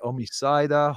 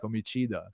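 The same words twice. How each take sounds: First: It is said with a non-Italian pronunciation. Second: It is said with an Italian pronunciation. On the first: The speaker calls it wrong. "everyone is like omicida" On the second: The speaker calls it right. "Italian, you know, because it's omicida"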